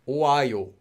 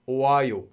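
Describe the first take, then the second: No difference in how they are said.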